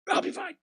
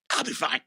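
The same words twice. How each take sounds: First: "I'll be fine" squeaked very high and soft; pained high squeak. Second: Said in the usual way. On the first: Retold or imitated. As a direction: force out "fine" in a strained falsetto. Injured man insisting twice.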